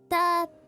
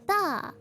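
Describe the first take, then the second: First: The pitch stays level throughout. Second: The pitch falls from high to low. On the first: "The first one is flat" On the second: "the fourth one is from high to low"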